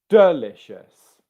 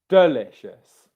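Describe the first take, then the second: First: The stress is on the first syllable. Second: The same.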